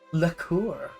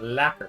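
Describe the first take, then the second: First: The second syllable sounds like 'coor'. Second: The second syllable sounds like 'ker'.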